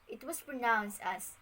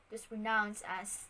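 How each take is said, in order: No difference in how they are said.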